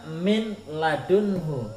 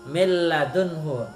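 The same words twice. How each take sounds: First: The n sound is pronounced before the l. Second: The n sound merges into the following l. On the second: "nun sukunnya melebur kepada huruf yang kedua lam"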